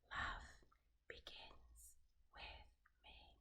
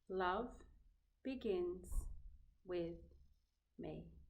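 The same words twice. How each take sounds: First: It is said more quietly. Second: It is said at normal volume.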